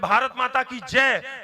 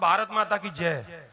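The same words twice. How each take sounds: First: It is said louder. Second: It is said at normal volume.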